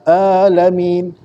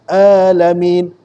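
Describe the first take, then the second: Both takes have the same delivery.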